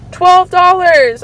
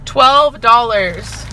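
First: High, loud, drawn-out outrage; aghast at the price; appalled disbelief. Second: Very slow, usual pitch; rueful disbelief. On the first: Revealing shocking price of chips. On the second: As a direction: draw each word out heavily. Repeating the price, rueful. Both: Real, not acted.

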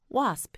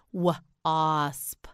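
First: Said in the usual way. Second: "Wasp" split into w... asp; sounded out. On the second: Shown as a demonstration. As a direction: pause after the W in "Wasp". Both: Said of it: "You say it".

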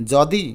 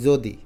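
First: যদি with open aw, "jaw-di", drawn out; open first vowel. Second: যদি with rounded o, "jo-di"; closed o vowel. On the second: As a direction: say যদি the everyday way, as "jo-di". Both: Shown as a demonstration. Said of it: "আমরা উচ্চারণ করি যদি".

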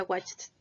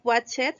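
First: Watched in one syllable, ending in a T sound; correct pronunciation. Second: Watched read letter-wise in two syllables, watch-ED; as spelled. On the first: Teacher shows how it is pronounced, one-syllable watched. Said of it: "pero se pronuncia". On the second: Teacher shows students the spelling, two-syllable watched. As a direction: sound the E in watched as WAT-ched. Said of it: "Se escribe watched". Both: Shown as a demonstration.

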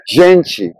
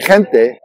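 First: Gente as "ZHEN-chee"; Brazilian Portuguese pronunciation. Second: Gente as "HEN-teh", h-like first sound; Spanish pronunciation. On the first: Teacher contrasting spelling and sound, Brazilian gente as zhen-chee. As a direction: begin gente with zh and end it in chee. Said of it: "So it's pronounced gente". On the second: Teacher contrasting same spelling, Spanish gente as hen-teh. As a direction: breathe an h into gente, keep the t hard. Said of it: "is spelled the same way as". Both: Shown as a demonstration.

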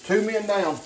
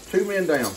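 No difference in how they are said.

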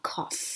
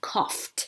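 First: "cough" ending in a clear F sound; final F sound. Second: "coughed" ending in a crisp FT. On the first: Teacher showing gh read as F, "cough" ending in F. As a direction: say "cough" with gh pronounced as F. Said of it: "ออกเสียงเป็นตัว f". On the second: Teacher showing past-tense ending, "coughed" with -ed said as T. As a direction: say "coughed" with -ed as a T sound. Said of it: "ed ตรงนี้อ่านเป็นเสียงตัว t". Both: Shown as a demonstration.

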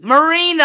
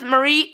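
First: "Marina" stressed as the fix, louder; corrected name. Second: "Marie" said by mistake, two syllables; the wrong name "Marie", quick and unnoticed; slip, "Marie" instead of Marina; slip of the tongue. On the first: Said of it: "not Marie". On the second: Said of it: "Mar-, not Marie". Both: Real, not acted.

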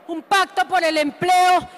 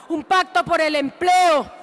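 No difference in how they are said.

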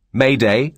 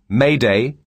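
Both takes have the same delivery.

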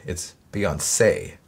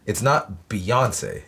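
First: Beyonce with stress on the last E, rising; right pronunciation. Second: Beyonce with stress on the O, slow; wrong pronunciation. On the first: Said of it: "accent on the last E". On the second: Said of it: "accent on the O". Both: Shown as a demonstration.

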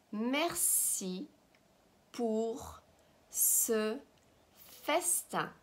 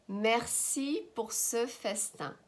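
First: "Merci pour ce festin" with a pause after each word; slow dictation of "Merci pour ce festin". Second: "Merci pour ce festin" slowly in one phrase; joined-up slow model. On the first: Teacher models phrase word by word. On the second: Teacher repeats phrase joined up. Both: Shown as a demonstration.

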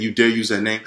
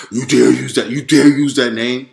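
First: Said in the usual way. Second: Louder, slowed, intimidating roar; heightened roar. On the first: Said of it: "saying it as if he said it that proper". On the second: Retold or imitated. Devil yelling at the speaker for saying Jesus, louder roar. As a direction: roar it down at him like a furious demon. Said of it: "but heightened".

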